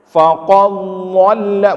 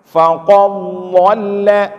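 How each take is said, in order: Both takes have the same delivery.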